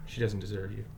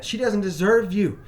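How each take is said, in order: First: Softer, lower, measured and unhurried; a quiet, even firmness facing an angry boy; calm and steady. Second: Forceful retelling. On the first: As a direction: say it stoically, refusing to rise to it. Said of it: "stoic, calm, consistent". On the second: First telling of his reply. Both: Retold or imitated.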